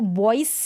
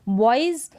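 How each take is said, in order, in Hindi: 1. शब्द का अंत s ध्वनि से होता है। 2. शब्द का अंत z ध्वनि से होता है। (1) "बॉइस नहीं पढ़ेंगे, यानी एस को हम स पढ़ दें" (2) "ज साउंड निकल रहा"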